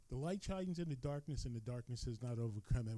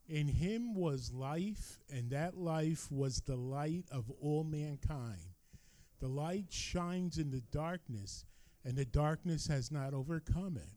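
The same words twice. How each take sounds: First: Said in the usual way. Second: Slow congregational reading in unison; many voices in unison. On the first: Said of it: "Isn't that a great statement?". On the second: Real, not acted. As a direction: read it slowly together, as one. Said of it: "if you would read it with me".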